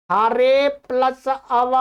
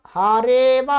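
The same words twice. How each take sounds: First: हारे plus अव slow, parts separate; unjoined words. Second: हारे व drawn out without a break; joined, silent अ. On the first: Teacher giving a practice example, unjoined. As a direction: sound the अ opening अव. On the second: Teacher giving the practice answer, joined with silent अ. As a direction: run हारे straight into व. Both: Shown as a demonstration. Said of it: "अ है वो silent हो जाता है".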